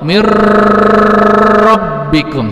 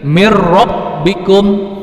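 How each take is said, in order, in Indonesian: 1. Bunyi yang digabung dibaca panjang, sekitar tiga ketukan. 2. Bunyi yang digabung dibaca pendek, tanpa dengung.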